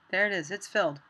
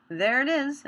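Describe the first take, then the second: First: Said in the usual way. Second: Higher and louder, pleased; pleased exclamation. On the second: Real, not acted. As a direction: cheer the result as it appears. Fill succeeds in the tutorial.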